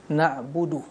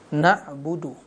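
Both takes have the same delivery.

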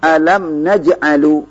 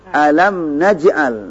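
First: The last word ends with a 'u' vowel. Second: The last word ends on a bare consonant. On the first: The speaker calls it wrong. "Tidak boleh dibaca seperti itu" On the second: The speaker calls it right. "mana fi'il mudhari majzumnya?"

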